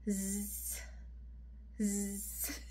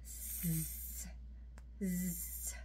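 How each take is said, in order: The two takes are said the same way.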